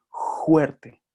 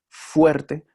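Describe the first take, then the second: First: "juerte" begun with a throaty Spanish j, higher; variant pronunciation. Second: "fuerte" begun with a clear f, higher and louder; standard pronunciation. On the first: Teacher showing how other people say it, "juerte" with throaty j. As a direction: set out "juerte" with j replacing f. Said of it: "otras personas que dicen". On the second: Teacher contrasting two pronunciations, "fuerte" with a clear f. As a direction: set out "fuerte" with lip-teeth f. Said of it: "pero hay otras personas que dicen". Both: Shown as a demonstration.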